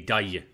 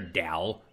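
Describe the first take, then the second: First: The word ends with a Y-like glide sound. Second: The word ends with a clear L sound. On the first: "in American it's Y. So it would be a Dai" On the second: "he pronounced it Dal"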